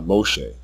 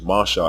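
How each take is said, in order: First: The first vowel is a rounded 'oh' sound. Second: The first vowel is an open 'ah' sound. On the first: The speaker calls it wrong. "and not Moshe" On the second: The speaker calls it right. "the name Masha is Masha"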